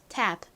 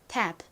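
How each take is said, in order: No difference in how they are said.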